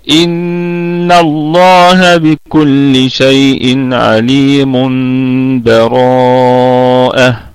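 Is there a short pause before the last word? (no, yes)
no. All words run together with no pause at all. "الوصل، اللي هو وصل الجميع"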